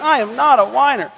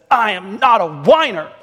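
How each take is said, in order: First: Exaggerated mock whine, much higher; whiny little boy. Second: Put-on whiny little boy. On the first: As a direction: whine it like an indignant small child. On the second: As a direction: imitate a small kid whining in protest. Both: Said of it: "said it in a whiny voice".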